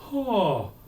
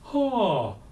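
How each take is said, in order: No difference in how they are said.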